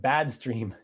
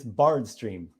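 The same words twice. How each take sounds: First: BAD said slowly with no R; mistaken word BAD. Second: BARD said slow and loud with its R; corrected word BARD. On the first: Host quoting a viewer's misspelling, BAD without an R. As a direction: pronounce Bad without any R sound. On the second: Host correcting a viewer's typo, BARD with a clear R. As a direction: land firmly on the R in Bard. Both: Shown as a demonstration.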